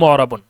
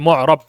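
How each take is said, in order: First: The word is said with its full -un ending. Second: The word stops without its final -un ending. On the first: This is the original full form of the word. "মূল শব্দটা হচ্ছে" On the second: This is the pausal form used when stopping. "ওয়াকফ করে মিলিয়ে এভাবে পড়ে যে"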